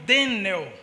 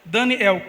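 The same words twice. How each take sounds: First: The name flows without a break before 'el'. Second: The name has a break between 'Dani' and 'el'. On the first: This names a different figure, not the prophet. "esse Daniel é pronunciado Daniel" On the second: This names the prophet, meaning God is my judge. "é Dani, uma aspas, El"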